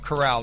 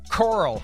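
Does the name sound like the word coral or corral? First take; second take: corral; coral. First: The name sounds like the word corral. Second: The name sounds like the word coral. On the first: The speaker calls it right. "Matt Coral instead of Corral" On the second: The speaker calls it wrong. "I don't know why my brain wants to say Coral"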